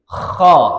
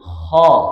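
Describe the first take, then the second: First: It has a heavy, strongly rasping throat friction. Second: It has a light, thin throat friction. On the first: The speaker calls it wrong. "Yang dengkurannya keras" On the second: The speaker calls it right. "dengkurannya lebih tipis"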